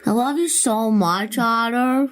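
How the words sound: It is said in a baby voice.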